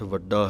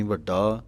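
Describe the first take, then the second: First: ਵੱਡਾ with a plain doubled ḍ; careful vaḍḍaa for ਵੱਡਾ; correct light ḍ. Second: ਵੱਡਾ with a heavy ḍh in place of ḍ; misreading ਵੱਡਾ as vaḍḍhaa; mistaken heavy consonant. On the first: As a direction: keep the middle of ਵੱਡਾ light, no ḍh. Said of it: "ਸੁੱਧ ਪਾਠ ਵੱਡਾ ਹੈ". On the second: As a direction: weigh down the middle consonant of ਵੱਡਾ like ḍhaḍḍa. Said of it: "ਇਹ ਗਲਤ ਹੈ". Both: Shown as a demonstration.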